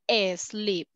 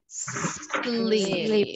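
First: An extra vowel sound comes before the s. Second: The word starts directly with the s sound. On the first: The speaker calls it wrong. "please don't say asleep" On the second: The speaker calls it right. "We have to say sleep"

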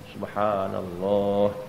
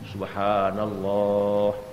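No difference in how they are said.

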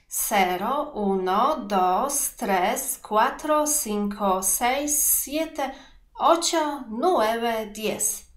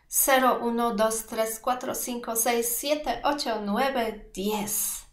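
First: The numbers are counted at a slower pace. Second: The numbers are counted at a faster pace.

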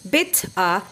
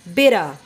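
First: The two words are said separately, with a clear t. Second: The words are linked, with a soft flapped t.

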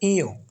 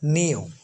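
First: It begins with a vowel sound. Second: It begins with an n sound. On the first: The speaker calls it right. "সঠিক উচ্চারণ হলো ইও" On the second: The speaker calls it wrong. "সঠিক উচ্চারণ কিন্তু নিও না"

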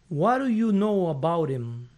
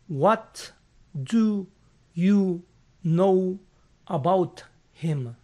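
First: The words run together with reduced sounds. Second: Each word is pronounced separately and fully. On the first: "el angloparlante promedio va a pronunciar esto de esta manera" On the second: "Leyendo los fonemas de las palabras por separado"

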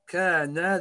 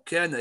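First: The final vowel is drawn out long. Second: The final vowel is short. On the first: Two people were. The speaker calls it wrong. "you are extending your na. ... Kana, they both of them were" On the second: One person was. The speaker calls it right. "He's the only one, Kana, he was"

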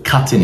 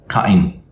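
First: The T is pronounced as a clear T sound. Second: The T is replaced by a glottal stop. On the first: "Instead of cutting" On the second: "it's cutting"

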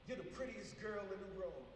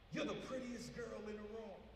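First: It sounds sincere and loving. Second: It sounds lustful and suggestive.

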